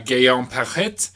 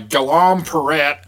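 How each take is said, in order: First: The name is said with a French accent. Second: The name is said with an American accent. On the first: "Are you actually French?" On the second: "I can pronounce it like an American"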